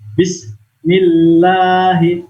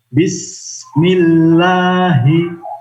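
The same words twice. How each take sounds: First: The s sound is cut off abruptly. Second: The s sound is held with flowing hiss. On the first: The speaker calls it wrong. "bukan disentak begitu" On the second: The speaker calls it right. "Yang betul adalah Bismillahi, Bismillahi. Sin sukunnya ditahan"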